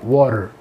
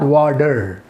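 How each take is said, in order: First: The middle consonant sounds between T and D. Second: The middle consonant is a crisp hard T. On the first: The speaker calls it right. "It's like in between टी and डी" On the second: The speaker calls it wrong. "Not वाटर"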